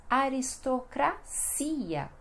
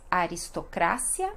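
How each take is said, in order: First: "aristocracia" slowly as a-ris-to-cra-SI-a; Portuguese pronunciation. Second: "aristocracia" as a-ris-to-CRA-sia, stress on CRA; Spanish pronunciation. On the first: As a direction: pause before a long stressed CI in "aristocracia". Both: Shown as a demonstration. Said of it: "e no português".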